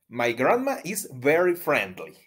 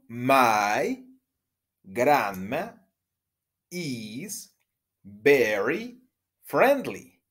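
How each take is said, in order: First: The sentence is said at a fast pace. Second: The sentence is said at a normal pace.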